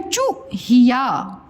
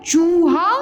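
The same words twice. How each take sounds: First: चूहिया with a quick "chu" before "hiyaa"; चूहिया with a brief first syllable and a gap; short vowel. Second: चूहा with a held "chooo"; चूहा slowly, as "chooo-haa"; long vowel. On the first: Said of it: "और ये है चूहिया". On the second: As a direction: stretch the first syllable of चूहा. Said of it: "बड़ा ओ की मात्रा". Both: Shown as a demonstration.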